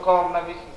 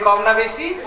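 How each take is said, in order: First: The question is said at normal volume. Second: The question is said noticeably louder.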